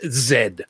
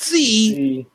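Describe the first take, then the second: First: The letter name is said as 'zed'. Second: The letter name is said as 'zee'. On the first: The speaker calls it right. "it is pronounced Zed" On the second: The speaker calls it wrong. "not Z"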